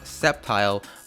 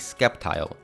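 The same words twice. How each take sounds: First: The name begins with a plain s sound. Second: The name begins with an sk sound. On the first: The speaker calls it right. "who the hell doesn't know how to pronounce Sceptile" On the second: The speaker calls it wrong. "the great skeptical lizard"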